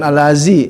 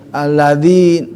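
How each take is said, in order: First: The middle consonant is a buzzing 'z' sound. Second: The middle consonant is a soft 'th' sound. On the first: The speaker calls it wrong. "bukan al-lazi" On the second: The speaker calls it right. "alladzi di gigit lidahnya"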